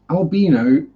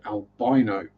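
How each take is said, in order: First: The middle syllable sounds like bee. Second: The middle syllable sounds like bye. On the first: "the correct English pronunciation" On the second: "the American word"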